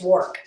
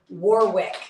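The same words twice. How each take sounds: First: It is said the way locals pronounce it. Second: It is said the way outsiders pronounce it. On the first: The speaker calls it right. "it's Warwick" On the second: The speaker calls it wrong. "people would say Warwick, and it's like no"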